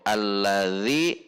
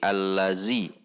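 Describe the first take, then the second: First: The middle consonant is a soft 'th' sound. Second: The middle consonant is a buzzing 'z' sound. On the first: The speaker calls it right. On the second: The speaker calls it wrong.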